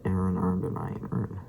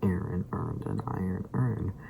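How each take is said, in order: First: The vowels are blurred and run together. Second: Each vowel is clearly and distinctly pronounced. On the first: "It was kind of not very enunciating on the uh, vowels" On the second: "it just didn't sound like"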